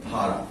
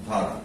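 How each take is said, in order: Both takes have the same delivery.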